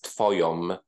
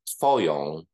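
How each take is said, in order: First: The word ends with a closed-lip m sound. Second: The word ends in a nasal vowel without closed lips. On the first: The speaker calls it wrong. "which is incorrect" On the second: The speaker calls it right. "make sure that my lips are not involved in producing the vowel"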